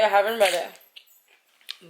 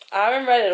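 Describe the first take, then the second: First: "I haven't read it" drawn out slowly; "I haven't read it" said slow and deliberate; slow repeat. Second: Said in the usual way. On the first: Shown as a demonstration.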